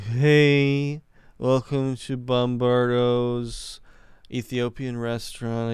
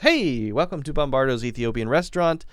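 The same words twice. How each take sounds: First: The greeting sounds bored and unfriendly. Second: The greeting sounds warm and friendly. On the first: The waiter does not deserve a tip. The speaker calls it wrong. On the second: The waiter deserves a tip. The speaker calls it right.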